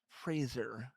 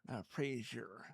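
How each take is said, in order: First: The name rhymes with razor. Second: The name sounds like Frasier. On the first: The speaker calls it right. "it's Fraser, like razor with an F at the beginning" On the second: The speaker calls it wrong. "not Frasier like the T V show"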